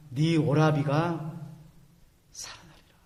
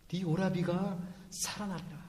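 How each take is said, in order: First: Slow, whispered 살아나리라 trailing into breath; whispered promise. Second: Softer voiced take with 오라비가 leaned on, falling end; soft spoken promise. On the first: Acted. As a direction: breathe the promise to Martha, slowly. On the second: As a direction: say it gently aloud to Martha. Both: Jesus voiced comforting Martha.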